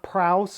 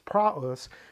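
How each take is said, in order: First: The two vowels merge into one diphthong. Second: The two vowels are said as separate syllables. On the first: The speaker calls it wrong. "it's not praus" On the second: The speaker calls it right. "it's praus"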